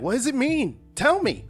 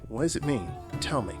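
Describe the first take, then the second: First: It sounds frustrated and demanding. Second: It sounds calm and intrigued.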